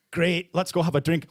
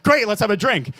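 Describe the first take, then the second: First: Lightly put-on Scottish accent; accidental Scottish accent. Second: Louder, higher, upbeat brush-off; Irish-side voice. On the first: Comic voicing their Irish side, drifting into a Scottish accent. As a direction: slip into a bit of a Scottish accent. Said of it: "Why am I doing a Scottish accent?". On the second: Acted. Comic's Irish side dodging how are you, louder and breezy. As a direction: cut the talk short with a loud cheer. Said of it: "the other side of me".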